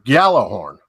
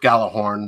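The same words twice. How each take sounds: First: It begins with a blended G-Y sound. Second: It begins with a plain hard G sound. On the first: This is the original Old Norse way. "combine the G and the Y sound, which is the J" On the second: This is the Americanized way. "the Americanized version thereof"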